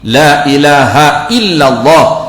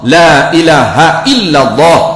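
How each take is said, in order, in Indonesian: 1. Diucapkan dengan jelas, bunyi 'h' dibunyikan. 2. Diucapkan dengan jelas, bunyi 'h' dibunyikan.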